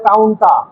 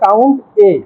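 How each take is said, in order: First: The A is joined onto count as one word. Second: The A is said as a separate letter. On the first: The speaker calls it wrong. "অনেকে বলে কাউন্টা" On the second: The speaker calls it right. "Original উচ্চারণ হবে কাউন্ট এ"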